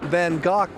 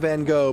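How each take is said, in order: First: The name is given a British pronunciation. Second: The name is given an American pronunciation. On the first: This is how people in England say it. "in England, they say" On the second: This is how people in the US say it. "In the U S, we call him"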